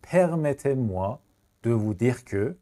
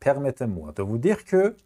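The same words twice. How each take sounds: First: Slow chunked repeat; very slow, split repeat. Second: Drawn-out teacher read; slow classroom French; slow model phrase. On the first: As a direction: break it into two slow chunks. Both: Shown as a demonstration.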